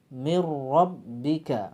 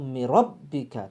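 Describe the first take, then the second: First: The doubled r is held one beat. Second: The doubled r is cut too short. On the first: The speaker calls it right. "Lalu cukup satu ayunan saja" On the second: The speaker calls it wrong. "terlalu cepat"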